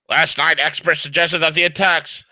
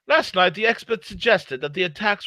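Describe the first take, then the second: First: It is said in his own American accent. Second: It is said in a put-on British accent.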